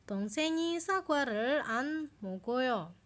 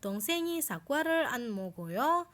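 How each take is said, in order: First: The voice does not rise at the end. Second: The voice rises at the end.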